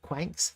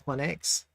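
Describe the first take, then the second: First: The name is said as one syllable. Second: The name is said as two syllables. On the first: The speaker calls it wrong. "in the past I used to call it Quanks" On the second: The speaker calls it right. "it's not Quanks, it's Quanex"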